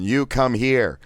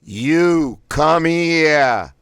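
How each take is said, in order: First: Said in the usual way. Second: Each word blasted high, loud and very slow; three words blasted. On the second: Shown as a demonstration. Voice exercise, "You come here" blasted word by word. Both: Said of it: "Blast out all three words individually".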